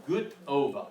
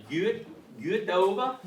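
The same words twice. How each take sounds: First: "good ova" with good rhyming with boot. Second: "good ova" with an umlauted U in good. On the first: Teacher offers class an easy shortcut, "good" said like boot in "good ova". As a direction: say "good" as "goot", a plain oo, then "ova". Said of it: "like, boot with a G". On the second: Teacher shows class the proper accented greeting, umlauted "good ova". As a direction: say "good" with the U fronted, as in a German umlaut, before "ova". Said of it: "umlauted U and the E, and it's probably good". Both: Shown as a demonstration.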